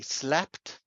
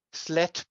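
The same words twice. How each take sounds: First: Said in the usual way. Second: "sletp" with the final p and t swapped; impossible English cluster. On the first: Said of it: "we can say slept". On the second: Shown as a demonstration. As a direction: say "sletp", t released before a last p. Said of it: "we can't say sletp".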